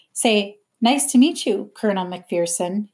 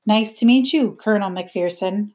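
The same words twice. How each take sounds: First: Mildly commanding, dictating the phrase; ordering. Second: Said in the usual way. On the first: A narrator's reading. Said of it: "he ordered". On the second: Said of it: "I said".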